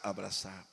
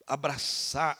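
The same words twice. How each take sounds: First: Lower, much softer, tender. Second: Said in the usual way. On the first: Shown as a demonstration. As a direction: say it softly, as if longing for a hug. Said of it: "puxa vida, deu vontade". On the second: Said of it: "abraçar, puxa vida, deu vontade".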